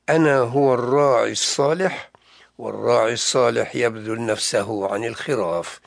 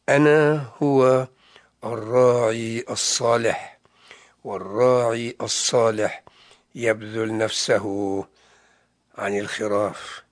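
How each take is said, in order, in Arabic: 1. تُقال الجملة بوتيرة عادية. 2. تُقال الجملة ببطء وتمهّل.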